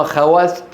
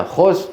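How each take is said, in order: First: خواست said khawast, with w and long aa; novice's misreading. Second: خوست said khost, one syllable with o; خوست with a rounded long o; native place-name pronunciation. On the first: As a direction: read خواست as spelt, kha-waast. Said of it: "الغشيم مثلي يقرأها خواست". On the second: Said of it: "لعلكم تسمعون بها". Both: Shown as a demonstration.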